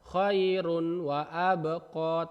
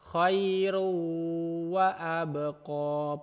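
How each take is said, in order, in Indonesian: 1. Bunyi n terdengar jelas sebelum wa. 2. Bunyi n menyatu dengan w setelahnya. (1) "bukan khairun wa abqa" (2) "Cara bacanya khairu wa abqa"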